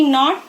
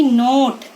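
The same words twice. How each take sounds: First: नॉट with a short, open "o"; short O sound. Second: नोट with a long, round "oh"; long O sound. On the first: Teacher showing children the short sound, short O in नॉट. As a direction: say नॉट with the open vowel of hot. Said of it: "short sound". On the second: Teacher showing children the long sound, long O in नोट. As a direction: say नोट as "noht", vowel held long. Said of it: "long sound". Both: Shown as a demonstration.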